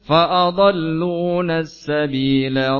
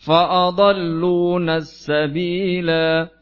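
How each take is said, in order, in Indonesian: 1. Vokal akhirnya pendek, karena langsung disambung ke kata berikutnya. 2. Vokal akhirnya dipanjangkan saat berhenti. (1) "kalau lanjut"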